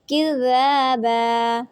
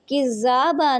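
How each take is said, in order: First: The dh sound is articulated softly. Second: The dh sound is articulated harshly. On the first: The speaker calls it right. "इसको आपने इंतहाई नरमी के साथ अदा करना है" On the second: The speaker calls it wrong. "नहीं पढ़ना"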